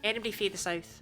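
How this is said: The Scottish form 'fae' is used for 'from'. The speaker calls it right. "You say fae"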